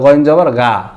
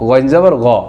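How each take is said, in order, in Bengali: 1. শেষ স্বরধ্বনিটি বাংলা 'aa'-এর মতো উচ্চারিত হয়। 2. শেষ স্বরধ্বনিটি হ্রস্ব, 'aa' ধ্বনি ছাড়া। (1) "বাংলাতে আকার দিয়ে উচ্চারণ করি" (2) "ওই অক্ষরটাই উচ্চারণ করতে হবে"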